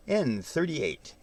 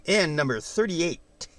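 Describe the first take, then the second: First: Slow drawn-out bingo call; bingo caller. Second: Said in the usual way. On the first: Shown as a demonstration. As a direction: announce it like a bingo hall caller. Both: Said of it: "Sound like a bingo caller".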